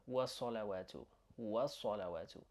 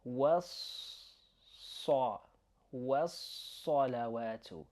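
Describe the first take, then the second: First: Was-salawatu with a short single S, not held; undoubled S in was-salawatu. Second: Was-salawatu slow, with a long held S; doubled S in was-salawatu. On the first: Teacher showing what to avoid, short S in was-salawatu. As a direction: pass quickly over the S in was-salawatu. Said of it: "rather than". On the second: Teacher showing two written letters, long S in was-salawatu. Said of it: "we've written two letters here". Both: Shown as a demonstration.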